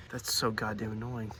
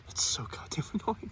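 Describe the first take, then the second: First: Said in the usual way. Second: Whispered, breaking into a laugh; amused whisper of exasperation. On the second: Real, not acted. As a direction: whisper it and crack up halfway. Repeated in a whisper.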